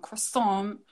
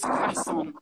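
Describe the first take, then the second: First: CROISSANT as "kruh-SOM", slow and level; slow CROISSANT with a weak "kruh" first syllable; rejected pronunciation. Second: CROISSANT as "kra-SON", open first vowel, high; higher, rising "krah-SON" for CROISSANT; preferred pronunciation. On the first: Correcting viewers on the pastry, the rejected "kruh-SOM" CROISSANT. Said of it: "it's not croissant". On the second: Correcting viewers on the pastry, the preferred "kra-SON" CROISSANT. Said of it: "it's croissant". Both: Shown as a demonstration.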